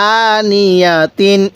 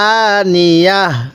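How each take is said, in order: First: The word ends in a full 'atin' sound. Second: The word ends in a short 'ah' sound. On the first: The reader continues without stopping. "আর যদি ওয়াকফ না করি" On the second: The reader stops at this word. "ওয়াকফ করলে"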